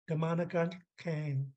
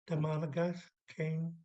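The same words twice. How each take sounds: First: The k is made far back in the mouth. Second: The k is made at the front of the mouth. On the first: The speaker calls it right. "I just did an underline K" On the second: The speaker calls it wrong. "say it from here, which is cheating"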